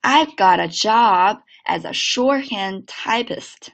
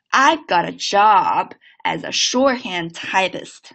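First: Slow linked model read; slow teacher's model. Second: Slow linked repeat; once more, slowly; slow second model. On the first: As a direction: read it slowly, linking got a. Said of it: "整个句子连起来". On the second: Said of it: "再来一遍啊". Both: Shown as a demonstration.

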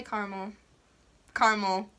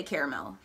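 First: Caramel said CAR-mul; caramel without the middle vowel; two-syllable caramel. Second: Caramel said CARE-uh-mel; caramel with an extra middle vowel; three-syllable caramel. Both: Shown as a demonstration. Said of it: "I say caramel".

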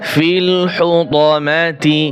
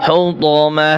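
First: "ফিল হু ত মা তি" with the final তি sounded; full ending. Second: "হু ত মা" ending in a breathed h; pausal h ending. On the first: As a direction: voice the ending vowel in তি. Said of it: "তি আর হবে না". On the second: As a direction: drop the ti and stop "হু ত মা" on h. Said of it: "হা উচ্চারণ হবে". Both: Shown as a demonstration.

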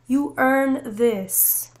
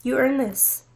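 First: You earn this, each word stretched slowly; a slow, deliberate declaration; slow, drawn-out emphasis. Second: Said in the usual way. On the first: Shown as a demonstration. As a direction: let "earn" sink in, very slow.

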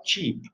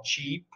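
First: Cheap, soft, one long vowel; quiet cheap with a single vowel sound. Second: Cheap, light and soft on one vowel. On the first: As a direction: cheap said softly, one clean ee. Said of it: "Só tem um som de vogal". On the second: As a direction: cheap said softly with a rising end. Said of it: "A pronúncia é cheap". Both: Shown as a demonstration.

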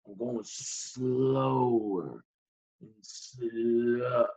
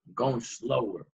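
First: Very slow, low and soft, stretched-out words; grinding to a halt. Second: Low, soft, dragging delivery; slowing down. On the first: Patient acting out his body giving out, grinding to a halt. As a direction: drag "slower" out like wading through mud. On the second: Patient recounting getting stuck as in mud, slowing down. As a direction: start to wind down as if stuck. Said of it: "I'm getting stuck". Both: Acted.

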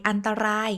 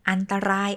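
Both takes have the same delivery.

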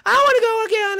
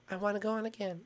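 First: Put-on loud, higher kid outburst; play-acted excited child; eager demand. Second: Low, soft little request; play-acted meek child begging; subdued plea. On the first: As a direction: burst out begging for another ride. Child eagerly demands another ride. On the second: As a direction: ask mom quietly, much lower. Child sulkily repeats the plea.

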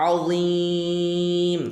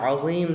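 First: আযীম chanted with a very long, level "eee"; three-count stretch on আযীম. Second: Said in the usual way. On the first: Shown as a demonstration. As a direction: hold the last vowel of আযীম on one steady note. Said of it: "তিন আলি পরিমাণ টান হবে". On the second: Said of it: "যে আমরা পড়ি".

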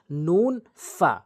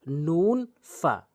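No difference in how they are said.

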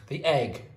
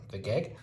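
First: Said in the usual way. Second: Says "geg" with a stray g stuck on the front; "geg" blurted as a mistake; slip of the tongue. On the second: Real, not acted. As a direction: trip over "geg" before getting it right.

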